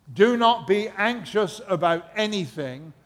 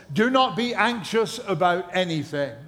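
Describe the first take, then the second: No difference in how they are said.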